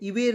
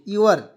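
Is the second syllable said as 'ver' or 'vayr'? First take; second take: vayr; ver. First: The second syllable sounds like 'vayr', with the e voiced. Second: The second syllable sounds like a plain 'ver'. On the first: The speaker calls it wrong. "इवेर नहीं होता इसे" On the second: The speaker calls it right. "ई इसमें silent रखते हैं"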